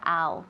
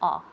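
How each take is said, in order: First: The vowel sounds like 'ow'. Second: The vowel sounds like 'ah'. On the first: The speaker calls it wrong. "we never say ow" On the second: The speaker calls it right. "pero ah"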